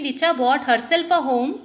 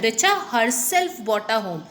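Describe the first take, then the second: First: Said in the usual way. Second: Richa said with the main weight, the rest even; stress on Richa. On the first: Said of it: "Here the intensity, the main, you can see the, the main sentence is a home". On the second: Shown as a demonstration. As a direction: lean on Richa, keep herself bought a home level. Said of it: "Here the emphasis of the sentence changes to Richa".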